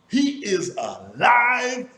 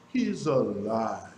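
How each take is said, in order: First: It is said in a happy, excited voice. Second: It is said in a sad, tired voice. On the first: "happy with a happy voice" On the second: "Was it a sad voice or a tired voice?"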